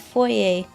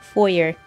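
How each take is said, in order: First: The word is said with a French-style ending. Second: The word is said with an English-style ending. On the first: "like the French pronunciation, the correct way" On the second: "the everywhere else pronunciation"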